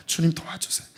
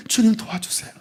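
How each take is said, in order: First: 주님 도와주세요 breathed in a whisper, much softer; voiceless hushed prayer 주님 도와주세요; whispered plea. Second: Soft plea. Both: Pretend. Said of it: "주님, 내 힘으로 안 됩니다".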